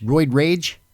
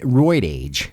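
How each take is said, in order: First: "rage" with a clear opening r, questioning; "roid rage" rising as a check; corrected word. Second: "roid age" with no r before age; "age" read literally, without an opening r; misread word. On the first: Host repeating the correction, "rage" with its r. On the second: Host reading a misspelt comment, "age" as written. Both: Real, not acted.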